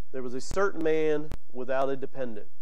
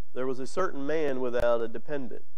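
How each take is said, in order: Both takes have the same delivery.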